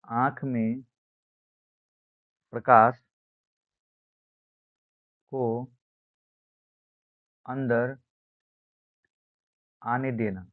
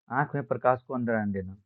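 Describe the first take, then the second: First: Word by word, long pauses between; spaced-out classroom dictation; slow dictation. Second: Said in the usual way. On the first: Shown as a demonstration. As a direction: dictate it for note-takers, pausing after each chunk.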